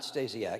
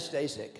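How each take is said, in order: First: The name ends with a longer 'siak' sound. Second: The name ends with a short 'sek' sound. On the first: The speaker calls it wrong. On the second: The speaker calls it right.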